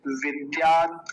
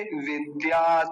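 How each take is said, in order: First: विद्यात stopped on a bare "t", no vowel after; firm "vidyaat" with a halted त; half final t. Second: विद्यात drawn out to end in an open "ta"; slow "vidyaata", final त voiced out; full final ta. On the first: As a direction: end विद्यात sharply on the consonant. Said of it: "आधा है तो कैसे बोलेंगे". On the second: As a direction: give विद्यात a full vowel after the last त. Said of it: "पूरा होता तो क्या बोलते". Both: Shown as a demonstration.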